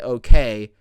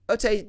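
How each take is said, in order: First: The word is said with a clear k sound. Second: The word is said with a t sound instead. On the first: This is the usual way of saying it. "She doesn't say okay" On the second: This imitates a child's lisp. "She says ote. So she's like ote"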